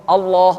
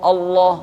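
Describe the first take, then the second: Both takes have the same delivery.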